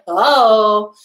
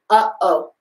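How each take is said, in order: First: The two vowels are blended smoothly together. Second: A glottal catch separates the two vowels. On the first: The speaker calls it wrong. "that's why I don't say oh" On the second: The speaker calls it right. "I'm using that glottal stop"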